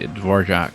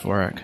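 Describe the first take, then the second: First: The name is said the way the composer's is. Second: The name is said the plain keyboard-layout way. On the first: "I was always in the habit of pronouncing it the Dvorak layout instead because of the uh, composer" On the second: "with the keyboard, it is just pronounced Dvorak"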